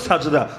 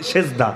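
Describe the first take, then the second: First: The first vowel sounds like 'a'. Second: The first vowel sounds like 'e'. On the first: This is the original form of the word. The speaker calls it right. "মূল হলো" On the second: This is a distorted form of the word. The speaker calls it wrong. "বিকৃত উচ্চারণে বলি"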